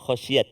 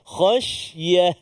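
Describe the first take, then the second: First: The word ends with a t sound. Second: The word ends with an h sound. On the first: The speaker calls it wrong. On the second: The speaker calls it right.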